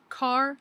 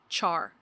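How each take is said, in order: First: It begins with a k sound, like car. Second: It begins with a ch sound, like chart. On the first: "Some people, including me, pronounce it car" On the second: "you will meet people who call it char"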